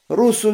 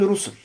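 First: A vowel is heard between s and l. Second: No vowel is heard between s and l.

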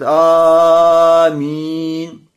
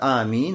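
First: The first vowel is stretched very long. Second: The first vowel is held for two beats. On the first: The speaker calls it wrong. "Не как некоторые говорят «Аминь»... И тянут «Аминь»... Тянут это «Аминь» в начале" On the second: The speaker calls it right. "когда тянешь два харака, то есть обычный мат, аминь, вот так"

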